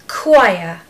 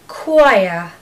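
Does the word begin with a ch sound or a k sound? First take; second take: k sound; k sound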